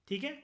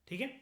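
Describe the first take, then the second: The two takes are said the same way.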